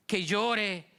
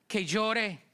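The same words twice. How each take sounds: The two takes are said the same way.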